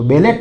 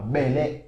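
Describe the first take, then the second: First: The word ends with a t sound. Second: The word ends without a t sound. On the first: The speaker calls it wrong. "बेलेट मत बोलना" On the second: The speaker calls it right. "बेले बोलना"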